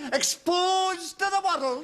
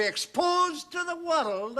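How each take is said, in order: First: EXPOSED drawn out high and slow; high, slow, ominous emphasis on EXPOSED; dramatic repeat. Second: EXPOSED pitched up in a dire warning; grave prediction, raised on "exposed"; emphatic warning. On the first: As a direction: stretch "exposed to the world" into a dire proclamation. Repeats dire warning for effect. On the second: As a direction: lean on "exposed" as you warn. Dire warning, first take. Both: Acted.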